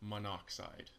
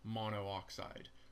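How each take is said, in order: First: The two o sounds merge, giving three syllables. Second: Both o sounds are kept, giving four syllables. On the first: The speaker calls it right. "rather than saying monoxide" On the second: The speaker calls it wrong. "It just looks funny and it sounds funny when you say monooxide"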